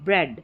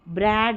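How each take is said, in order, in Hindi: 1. स्वर छोटा और झटके से कटा हुआ है। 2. स्वर को खींचकर लंबा किया गया है। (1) "शॉर्ट साउंड" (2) "ब्रैड ज़्यादा थोड़ा खींचना नहीं है"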